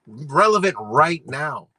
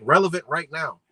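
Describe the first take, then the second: First: "Relevant right now" slow and louder, each word weighted; emphatic repeat. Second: Said in the usual way. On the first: Real, not acted. Vlogger driving the point home to viewers, slow, emphatic "Relevant right now".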